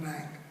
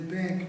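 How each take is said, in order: First: The vowel is lax and low. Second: The vowel is tense and raised. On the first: "not bank" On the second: "She has to raise certain elements that were laxed before. She has to say bank"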